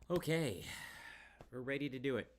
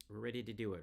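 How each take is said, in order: First: Loud, eager and higher, stress on do; excited. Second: Said in the usual way. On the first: Real, not acted. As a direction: pump yourself up.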